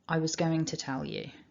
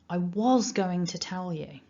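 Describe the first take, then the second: First: The word 'was' is unstressed, in weak form. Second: The word 'was' is stressed, in strong form.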